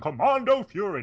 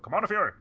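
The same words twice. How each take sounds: First: The title is said at a slower pace. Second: The title is said at a fast pace. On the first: "rather than Commando Fury" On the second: "they say it really fast"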